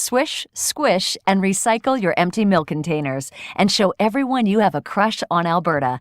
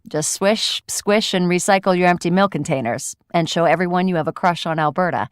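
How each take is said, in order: First: It is said in a bright, smiley voice. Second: It is said in a flat, sarcastic voice.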